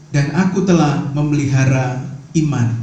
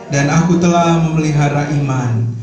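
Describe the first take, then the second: No difference in how they are said.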